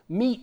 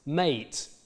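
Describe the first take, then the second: First: The vowel is a high 'ee' sound. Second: The vowel is a mid 'ay' sound. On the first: "which today is pronounced with an E diphthong" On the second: "In original pronunciation, this word would have been pronounced mate"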